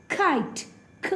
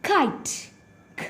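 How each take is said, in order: No difference in how they are said.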